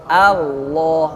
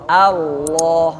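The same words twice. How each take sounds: No difference in how they are said.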